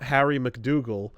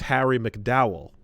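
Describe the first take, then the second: First: The surname is said with a hard g sound. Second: The surname is said with no g sound. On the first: The speaker calls it wrong. "It's not Harry McDougal" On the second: The speaker calls it right. "it's Harry McDowell"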